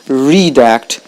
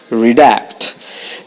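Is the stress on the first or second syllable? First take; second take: first; second. First: The stress is on the first syllable. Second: The stress is on the second syllable. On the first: The speaker calls it wrong. "it's not redact" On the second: The speaker calls it right. "The stress is on the second syllable"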